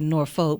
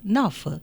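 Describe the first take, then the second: First: The name is pronounced the way it is spelled. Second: The name is pronounced the way locals say it. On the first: This is how an outsider reading it would guess. The speaker calls it wrong. "If you look at it and read it, you might say Norfolk" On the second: This is how people from the city actually say it. The speaker calls it right. "but it's Norfolk"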